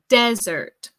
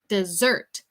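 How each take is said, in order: First: The stress is on the first syllable. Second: The stress is on the second syllable. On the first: It means a dry, sandy land. "we put more emphasis on the first syllable" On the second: It means a sweet course after a meal. "Eso tiene más énfasis en la sílaba dos"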